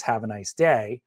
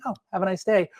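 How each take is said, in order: First: Said in the usual way. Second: Higher, bright mock-cheerful; sarcastic chirp. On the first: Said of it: "if the line is". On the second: Shown as a demonstration. Teacher demos sarcastic cheer to writers. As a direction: fake sweetness over the line. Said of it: "an actor could choose to be".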